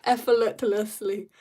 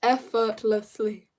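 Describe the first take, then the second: First: Slow "Effortlessly" with an extra l, like "effle-tlessly"; "Effortlessly" drawn out, tangled in the middle; careful botched retry. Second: "effortlessly" slow, each syllable sounded out; deliberate, corrected "effortlessly"; careful pronunciation. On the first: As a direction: sound out "Effortlessly" slowly but fumble it. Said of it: "that was brutal". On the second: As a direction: say "effortlessly" slowly as effort-less-ly. Slow retry of fumbled word. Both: Real, not acted.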